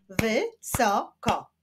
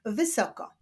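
First: "Wysoko" slowly split as wy, so, ko; three slow beats on "Wysoko"; syllable by syllable. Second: Said in the usual way. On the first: Shown as a demonstration. Teacher clapping syllables for pupils, "Wysoko" split in three. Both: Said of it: "Wyklaszczmy sylaby w tych wyrazach".

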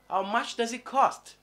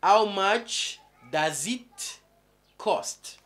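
First: Said in the usual way. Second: How much drawn out slowly, rising, then cost; teacher modelling the short question slowly; slow drawn-out model. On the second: Shown as a demonstration. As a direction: stretch the question slowly for the class. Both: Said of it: "Ou simplement".

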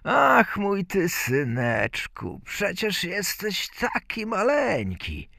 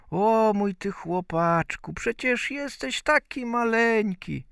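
First: Slow opening, raised pitch; fond father fussing over his tiny son; doting father. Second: High-pitched fussing mother voice; doting mother. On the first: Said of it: "zaczął prosić ojca". (czuły ojciec, podwyższonym głosem) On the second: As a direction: coo at a tiny child in a raised voice. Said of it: "a żona zamierzała zanieść mu obiad". (czuła mateńka, wysokim głosem) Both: A narrator's reading.

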